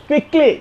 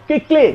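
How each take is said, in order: Both takes have the same delivery.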